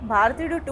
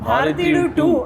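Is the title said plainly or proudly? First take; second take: plainly; proudly. First: The title is said in a plain, flat way. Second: The title is said with proud, forceful emphasis. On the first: The speaker calls it wrong. "అనలేం" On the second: The speaker calls it right. "ఆ గర్వం ఉంటది"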